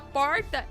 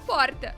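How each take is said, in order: First: It is said in an inland São Paulo accent. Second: It is said in a São Paulo city accent. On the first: This is the speaker's native way of speaking. "ao invés de eu falar porta" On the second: This is an adopted way of speaking copied from others. "inclusive o sotaque paulistano, que é um sotaque que inicialmente eu achava assim que eu queria falar daquele jeito"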